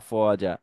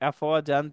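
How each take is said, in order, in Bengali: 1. শব্দটি টেনে উচ্চারিত আ-স্বরধ্বনি দিয়ে শেষ হয়। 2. শব্দটি ছোট -an ধ্বনি দিয়ে শেষ হয়। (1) "যদি আমরা থেমে যাই, তখন এটা এক আলিফ টান হবে" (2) "আফওয়াজান থেকে"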